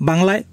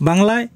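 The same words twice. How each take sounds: No difference in how they are said.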